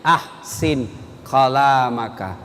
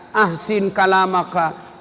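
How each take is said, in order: First: Ahsin kalamaka, low and slow, stress on ahsin; lower, slow Arabic quote; solemn quotation. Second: Said in the usual way. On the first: Shown as a demonstration. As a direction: intone the hadith gravely. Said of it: "kata Nabi".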